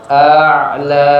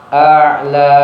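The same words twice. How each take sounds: Both takes have the same delivery.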